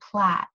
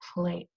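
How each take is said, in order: First: The vowel is a short a sound. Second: The vowel is a long a sound. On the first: The speaker calls it wrong. "This word would not be plat" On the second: The speaker calls it right. "it's plate"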